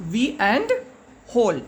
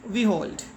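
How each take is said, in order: First: "we and hold" as two separate parts, pause before hold; split into syllables. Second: Said in the usual way. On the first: Shown as a demonstration. Teacher showing children the two parts, "we and hold" split into syllables. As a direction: break "we and hold" apart, syllable by syllable. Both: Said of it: "break up this word into two parts".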